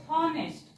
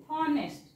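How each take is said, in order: The two takes are said the same way.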